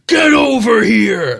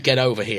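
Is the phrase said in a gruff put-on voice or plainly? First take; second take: gruff; plain. First: It is growled in a gruff put-on voice. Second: It is said plainly in a normal voice. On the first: It imitates a famous game character's line. "he deliberately says it in this voice ... like that" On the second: It is an ordinary request with no reference. "He doesn't just say"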